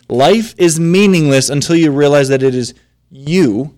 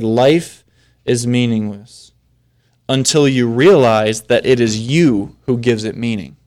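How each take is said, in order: First: "you" set apart and punched with emphasis; stress on YOU. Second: Said in the usual way. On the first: Shown as a demonstration. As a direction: lean hard on the final word "you". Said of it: "that's where I'm putting the emphasis".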